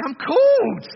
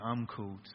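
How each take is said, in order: First: Much higher and much louder, a joyful shout; enthusiastic shout. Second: A gloomy, low-energy mumble like Eeyore; mock Eeyore mumble. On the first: Preacher showing the crowd how to answer, joyful shout. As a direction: belt it out with full enthusiasm. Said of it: "say it with a bit more enthusiasm". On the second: Preacher mocking the crowd's half-hearted answer, glum mumble. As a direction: say it flat and glum, no conviction. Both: Shown as a demonstration.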